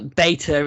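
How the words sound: It is said with an American pronunciation. The speaker calls it wrong. "British people follow the Americanisms"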